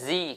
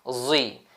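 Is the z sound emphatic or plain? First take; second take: plain; emphatic. First: The z sound is thin and plain. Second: The z sound is thick and emphatic. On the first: The speaker calls it wrong. "bukan zi. Kalau zi itu huruf zai nipis" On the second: The speaker calls it right. "ni zai tebal"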